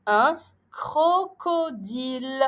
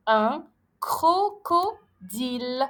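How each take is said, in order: First: Slow un crocodile with a hard K; careful reading. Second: Very slow Un crocodile, K clear; careful reading. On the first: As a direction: model un crocodile for pupils. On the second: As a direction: repeat Un crocodile syllable by syllable. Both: Shown as a demonstration. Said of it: "je le prononce K".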